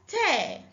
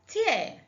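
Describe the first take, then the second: First: The word rhymes with 'air'. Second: The word rhymes with 'ear'. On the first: It means to rip something apart. "to damage something by pulling it apart" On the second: It names a drop from the eye. "a drop of liquid that comes from the eyes"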